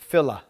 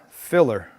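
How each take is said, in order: First: The word ends in an open vowel, no r. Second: The word ends with a clear r sound.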